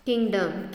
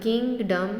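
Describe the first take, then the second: First: Said in the usual way. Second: kingdom in two separate beats, "king - dum"; split into syllables. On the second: Shown as a demonstration. (Kingdom को दो हिस्सों में तोड़कर) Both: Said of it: "दो syllable हैं".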